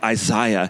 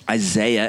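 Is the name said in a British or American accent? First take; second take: British; American. First: The name is said in an attempted British accent. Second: The name is said in an American accent.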